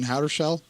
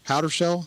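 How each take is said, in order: First: The name is said with an R sound. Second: The name is said without an R sound. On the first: The speaker calls it wrong. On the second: The speaker calls it right.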